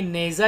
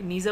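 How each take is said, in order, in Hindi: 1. पहला स्वर 'ay' जैसा बोला जाता है। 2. पहला स्वर 'ee' जैसा बोला जाता है। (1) "नेज़ा ही बोलेंगे इसको" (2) "नीज़ा कोई वर्ड ही नहीं होता"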